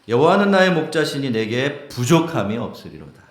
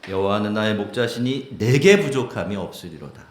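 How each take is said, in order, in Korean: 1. 강세는 '부족함이'에 있습니다. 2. 강세는 '내게'에 있습니다.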